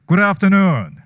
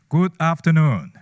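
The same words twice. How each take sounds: First: It is said loudly. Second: It is said quietly.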